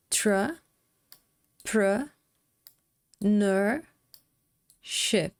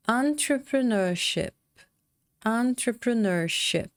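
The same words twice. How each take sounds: First: Entrepreneurship split into slow separate syllables with pauses. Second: Entrepreneurship said whole, slow and careful; whole word. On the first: Teacher separates the syllables for students, drawn out slowly. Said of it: "separar essas sílabas aqui". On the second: Teacher models the whole word after the syllables, slow. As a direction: blend it back into one word. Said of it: "tomar cuidado aqui com a pronúncia". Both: Shown as a demonstration.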